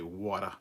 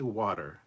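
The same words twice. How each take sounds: First: The word is said in an Australian accent. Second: The word is said in an American accent. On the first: "a word that Australians say that I really like the sound of" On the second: "You don't say water"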